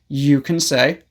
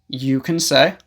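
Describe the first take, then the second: Both takes have the same delivery.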